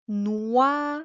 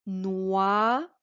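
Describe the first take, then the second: First: "noyau" said clearly for dictation; dictation word. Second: "Noyau" repeated with a rising tune; dictation repeat. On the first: Teacher dictating a word to pupil. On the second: Teacher repeating a dictation word. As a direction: say "Noyau" again, clearly, rising at the end. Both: Shown as a demonstration. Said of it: "Tu as ici à écrire le mot".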